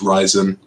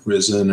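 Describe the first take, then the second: First: The first syllable sounds like 'rye'. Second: The first syllable sounds like 'riz'. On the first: The speaker calls it right. "but it's pronounced Ryzen" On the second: The speaker calls it wrong. "you would expect it to be pronounced like Risen"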